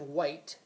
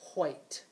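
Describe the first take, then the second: First: It begins with a plain w sound. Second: It begins with a breathy wh sound. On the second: "they still pronounce the W H with a breathier sound"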